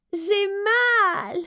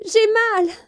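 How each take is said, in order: First: High, sharp cry of pain; a young princess crying out in pain. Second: High, loud cry of pain; a young princess crying out in pain. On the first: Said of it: "s'écria Élisabeth". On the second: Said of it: "cria Élisabeth". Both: A narrator's reading. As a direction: cry out from a throbbing tooth.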